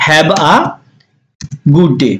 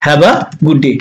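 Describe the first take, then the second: First: Long pause before good day; lower, spaced-out teaching delivery; word by word. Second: Said in the usual way. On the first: Shown as a demonstration. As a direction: model it piece by piece. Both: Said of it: "আমরা কিন্তু বলি এভাবে".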